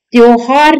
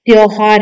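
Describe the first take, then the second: First: त्योहार said as misspelt; wrong pronunciation. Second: त्योहार said evenly in its proper form; correct pronunciation. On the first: Teacher rejecting a misspelling, wrong pronunciation. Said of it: "नहीं है". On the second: Teacher giving the corrected word, correct pronunciation. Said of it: "त्योहार है". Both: Shown as a demonstration.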